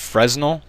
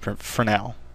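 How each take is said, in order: First: The word is pronounced the way it is spelled. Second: The word is pronounced differently from its spelling. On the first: The speaker calls it wrong. "I don't believe it's Fresnel, uh, even though it looks like that" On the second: The speaker calls it right. "I believe it's pronounced Fresnel"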